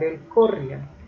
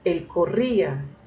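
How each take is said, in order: First: The i is unstressed and glides into the a. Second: The i carries the stress as its own syllable. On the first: The speaker calls it wrong. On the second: The speaker calls it right.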